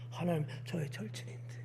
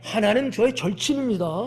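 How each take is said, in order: First: It is said meekly and without confidence. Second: It is said confidently and proudly.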